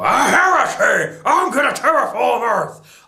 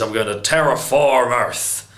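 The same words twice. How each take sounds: First: Hammed-up Zod. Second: A hint of a menacing Zod, close to own voice; bad Zod impression. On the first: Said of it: "I sound like a redneck". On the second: Reviewer imitating Zod revealing his plan, weakly voiced villain. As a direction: try a flat villain line as Zod, barely shifted. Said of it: "That was terrible".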